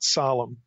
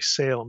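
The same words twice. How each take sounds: First: The name is said with a non-anglicized pronunciation. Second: The name is said with an anglicized pronunciation. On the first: The speaker calls it right. "but Salem" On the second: The speaker calls it wrong. "that's such an anglicized pronunciation"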